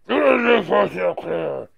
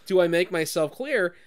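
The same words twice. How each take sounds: First: It is said in a distorted, garbled villain voice. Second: It is said in a plain, natural voice.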